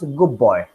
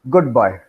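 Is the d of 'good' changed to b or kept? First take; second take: changed; kept. First: The d of good sounds like b. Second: The d of good is clearly pronounced. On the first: The speaker calls it right. "da becomes ba. So it becomes good boy" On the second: The speaker calls it wrong. "not good boy"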